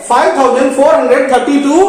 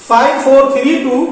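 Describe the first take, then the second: First: five thousand four hundred thirty two read as one whole number; wrong whole-number reading. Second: five four three टू read as four separate single digits. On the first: Teacher showing kids the wrong reading five thousand four hundred thirty two. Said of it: "नहीं पढ़ेंगे". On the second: Teacher showing kids five four three टू read digit by digit. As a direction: say five four three टू one digit at a time, no place values. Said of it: "five four three टू पढ़ रहा हूं". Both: Shown as a demonstration.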